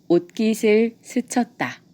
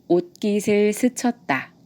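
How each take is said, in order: Both takes have the same delivery.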